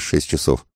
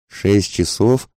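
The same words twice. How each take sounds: First: Said in the usual way. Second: Slow, higher incredulous question; изумлённый возглас. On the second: A narrator's reading. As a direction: echo it drawn out, rising in disbelief. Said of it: "воскликнул паспорту". (изумлённо, протяжно переспрашивая)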